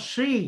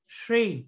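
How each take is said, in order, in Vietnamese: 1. Âm đầu tiên được phát ra với môi không tròn. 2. Âm đầu tiên được phát ra với môi tròn. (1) "không đọc là she" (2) "tròn môi cong lưỡi"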